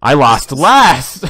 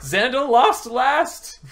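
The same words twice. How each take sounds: First: Slow, loud, laughing gloat; drawn-out laughing shriek; shrieking jackpot winner. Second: High, slow, drawn-out gloat; shrieking jackpot winner. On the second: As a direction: squeal it in triumph. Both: Real, not acted. Gloating over the game's outcome.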